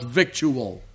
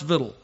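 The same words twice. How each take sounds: First: The word has a standard, spelling-based pronunciation. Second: The word has a country-sounding pronunciation. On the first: The speaker calls it wrong. "It's not pronounced victual. I know I used to say it that way" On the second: The speaker calls it right. "I know it sounds country to us"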